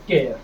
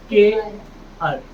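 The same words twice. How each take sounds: First: केयर said as care, lower and falling; केयर, one syllable like care; correct care. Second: के अर drawn out very slowly as two parts; के अर, slow and split in two; wrong reading. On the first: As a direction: say केयर the right way. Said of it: "इसे केयर पढ़ेंगे". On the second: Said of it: "के अर नहीं". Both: Shown as a demonstration.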